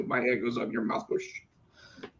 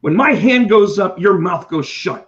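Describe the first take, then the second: First: Muttered teacher rule. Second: Stern teacher. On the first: Repeating the teacher's rule to himself, muttered. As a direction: repeat the rule quietly to yourself. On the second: Teacher laying down the rule to a class, loud and stern. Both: Retold or imitated. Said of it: "that's what teachers do".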